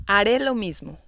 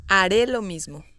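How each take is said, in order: Both takes have the same delivery.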